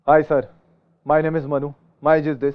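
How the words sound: It is spoken in a harsh, angry tone. The speaker sounds like a soldier, not a job seeker. "ऐसा लग रहा है फौजी है ये ... गुस्से में बोल रहा है"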